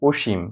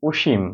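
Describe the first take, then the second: Both takes have the same delivery.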